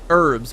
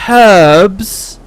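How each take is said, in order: First: The word begins with a silent h. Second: The word begins with an audible h sound. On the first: "we're trying to be French" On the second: "Because there's a H in it"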